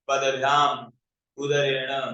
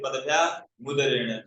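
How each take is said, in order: First: The m ends the first word, separated from udarena. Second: The m runs into the next word as mudarena. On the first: "हम इसको संधि विक्षेप करके बोल रहे हैं" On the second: "वैसे बोल सकते हैं"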